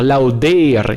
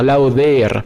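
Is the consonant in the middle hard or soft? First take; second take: hard; soft. First: The middle consonant is a hard D sound. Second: The middle consonant is a soft th-like sound. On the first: The speaker calls it wrong. "il faut pas dire lauder" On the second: The speaker calls it right. "il faut vraiment dire lauder"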